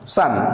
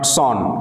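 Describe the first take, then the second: First: The vowel is short and open, like 'sun'. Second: The vowel is rounded, like 'sawn'. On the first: The speaker calls it right. "উচ্চারণটা সান বলবে" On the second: The speaker calls it wrong. "Not সন"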